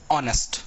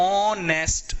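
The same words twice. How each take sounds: First: ऑनेस्ट said with no h sound; silent h. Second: ऑनेस्ट said clearly with the h left out; silent h. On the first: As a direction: start ऑनेस्ट straight on the vowel. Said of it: "ऐसा ही पढ़ा जाता है". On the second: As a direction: open ऑनेस्ट on the vowel, no h. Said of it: "तो ये कैसे पढ़ा जाता है". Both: Shown as a demonstration.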